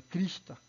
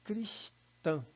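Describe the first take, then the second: First: "crista" stressed on the first syllable, oral final A; "crista" as a paroxytone, no nasal vowel. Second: "cristã" split in two, stressed nasal "tã"; higher-pitched "cristã" with stress on the last syllable; nasalized, final stress. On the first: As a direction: punch CRIS and let "ta" fall away un-nasalized. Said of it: "paroxítona". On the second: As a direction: break "cristã" apart and land on a nasal ã. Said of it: "Quando eu digo assim". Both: Shown as a demonstration.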